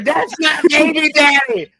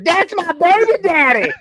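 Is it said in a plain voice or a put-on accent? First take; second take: plain voice; put-on accent. First: It is said in a plain reading voice. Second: It is said in a put-on accent.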